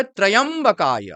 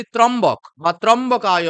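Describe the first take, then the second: First: ত্রয়ম্বকায় with a full "ya" syllable, "tra-yam-ba-kaya"; correct pronunciation. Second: ত্রম্বক and ত্রম্বকায় without the "ya" after "tra"; common mispronunciation. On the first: Teacher corrects the mantra word, pronouncing ত্রয়ম্বকায় with "tra-yam" in two syllables. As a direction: sound the "yam" clearly in ত্রয়ম্বকায়. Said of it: "উচ্চারণটি হবে". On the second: Teacher shows how people misread the name, saying ত্রম্বক with "ya" dropped. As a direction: run "tra" straight into "mbok", as ত্রম্বক. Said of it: "কিন্তু এটা এরকম নয়". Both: Shown as a demonstration.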